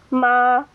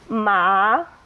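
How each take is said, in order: First: The pitch stays high and level. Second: The pitch rises through the syllable. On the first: It means mother. "with the first tone on that high level" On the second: It means hemp. "with a rising tone"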